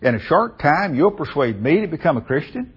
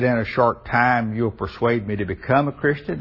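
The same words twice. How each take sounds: First: It is asked with a scoffing, incredulous inflection. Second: It is asked as a plain, sincere question. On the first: The asker finds the idea of being persuaded absurd. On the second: The asker genuinely wonders about being persuaded quickly. "are you trying to get me to obey the gospel pretty quickly?"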